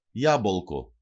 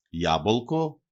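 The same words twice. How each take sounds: First: Ιάμπολκο stressed on opening Ιά, falling; antepenultimate stress. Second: Ιάμπολκο stressed on opening Ιά, rising at the end; antepenultimate stress. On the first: Teacher showing the stress rule to learners, first-syllable stress, falling. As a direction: hit the start of Ιάμπολκο, then drop. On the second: Teacher repeating the example for learners, first-syllable stress, rising. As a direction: stress the start of Ιάμπολκο, lift the ending. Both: Shown as a demonstration. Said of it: "προπαραλίγουσα συλλαβή".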